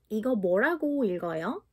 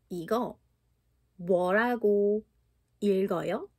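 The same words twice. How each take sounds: First: It is said fast. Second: It is said at a normal pace.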